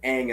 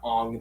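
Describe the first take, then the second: First: The vowel sounds like 'ay' in 'day'. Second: The vowel sounds like 'ah' in 'father'. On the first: The speaker calls it right. "hopefully they pronounce it Aang" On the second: The speaker calls it wrong. "and not Ong this time"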